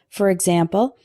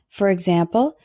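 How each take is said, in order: No difference in how they are said.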